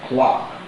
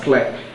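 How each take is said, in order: First: The vowel is a long open 'ah' sound. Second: The vowel is a central 'er' sound. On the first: The speaker calls it right. "It has vowel number five, the long R sound" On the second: The speaker calls it wrong. "this again is mispronounced in most cases. You hear people pronounce this as clerk"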